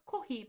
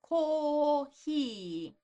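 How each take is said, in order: First: The first vowel is short and clipped. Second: The first vowel is held out long. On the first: The speaker calls it wrong. "So not kohi" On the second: The speaker calls it right. "but kohi. ... hold out the sound, the vowel sound"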